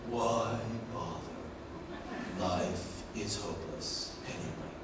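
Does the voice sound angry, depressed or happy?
depressed. Slow, low, flat monotone sounding depressed. "that's slow, low, and it's a monotone, fairly depressed"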